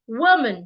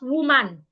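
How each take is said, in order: First: The stress is on the first syllable. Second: The stress is on the second syllable. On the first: The speaker calls it right. "So I'm going to stress the first part" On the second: The speaker calls it wrong. "not woman"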